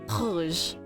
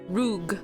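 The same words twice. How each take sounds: First: It is said with a throaty French r. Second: It is said with an American English r. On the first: The speaker calls it right. "But in French, it's rouge" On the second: The speaker calls it wrong. "I'm gonna say it with the American accent"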